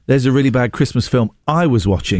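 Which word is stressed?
bad. The word bad carries the main stress. The film just mentioned was also a Christmas film. The speaker calls it wrong. "You then said in this tone"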